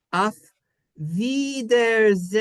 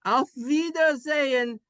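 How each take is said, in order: First: "Auf Wiedersehen" slow and stretched, higher; sounded-out German. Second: "Auf Wiedersehen" flowing, high-pitched, German vowels; joined-up German. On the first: Teacher showing the class, "Auf Wiedersehen" slowly sounded out. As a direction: draw out "Auf Wiedersehen" syllable by syllable. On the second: Teacher repeating for the class, "Auf Wiedersehen" joined up and high. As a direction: say "Auf Wiedersehen" as one connected phrase. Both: Shown as a demonstration. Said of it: "How do you say that?".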